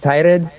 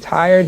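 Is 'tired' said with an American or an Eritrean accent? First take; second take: Eritrean; American. First: It is said in an Eritrean-Ethiopian accent. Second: It is said in a plain American accent. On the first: "he'll say tired" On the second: "Instead of saying tired"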